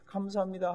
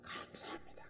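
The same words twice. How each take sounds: First: Said in the usual way. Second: Breathy whispered "감사합니다,"; whispered thanks. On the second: Retold or imitated. Preacher acting David's relief, whispering the thanks. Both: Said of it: "막 이렇게 하면서".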